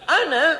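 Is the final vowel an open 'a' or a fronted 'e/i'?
a. The final vowel is an open 'a'. This is the standard pronunciation of some tribes.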